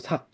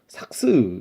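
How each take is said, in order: First: Only the first final consonant is sounded. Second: Both final consonants are sounded, adding a syllable. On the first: The speaker calls it right. "첫째 자음만 발음된대요" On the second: The speaker calls it wrong. "삭스 이렇게 안 듣고"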